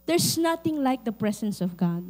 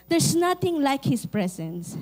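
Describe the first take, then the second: First: Said in the usual way. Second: Each word slowed and weighed; solemn, deliberate restatement; slow emphatic repeat. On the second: Shown as a demonstration.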